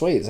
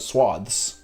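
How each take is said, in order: First: The vowel is long, as in 'bathe'. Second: The vowel is short, as in 'bath'. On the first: The speaker calls it right. "I don't even think I knew it was pronounced swathes" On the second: The speaker calls it wrong. "I think I probably called it swaths my whole life"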